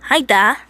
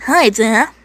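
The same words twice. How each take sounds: First: Put-on Texan greeting in a mistaken accent; louder, higher greeting, accent slightly off; wrong accent. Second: Put-on louder retake in a Texan accent; lightly acted Texan accent on "Hi, Da"; corrected Texan accent. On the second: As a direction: greet Dad in a put-on Texan voice. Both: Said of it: "Mate, wrong accent".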